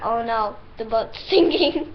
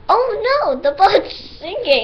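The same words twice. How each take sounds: First: It is said flatly, without much feeling. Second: It is said expressively, with dramatic feeling.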